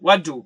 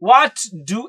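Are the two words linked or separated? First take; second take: linked; separated. First: The two words are run together as one. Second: The two words are said separately. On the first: The speaker calls it right. "വളരെ connect ചെയ്തുകൊണ്ട് അങ്ങോട്ട് പറയാൻ പറ്റും" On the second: The speaker calls it wrong. "എന്ന് പറയേണ്ടതില്ല"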